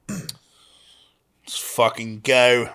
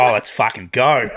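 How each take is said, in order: First: Slow, drawn-out try at an Australian accent; Australian accent attempt that lands British; British-leaning Australian accent. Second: Laughing Aussie accent, GO lifted at the end; quicker, exaggerated Australian twang. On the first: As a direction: draw GO out long in a British-sounding Aussie accent. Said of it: "that was more British". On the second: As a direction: do a broad, amused Australian. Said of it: "Australian would be like". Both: Shown as a demonstration.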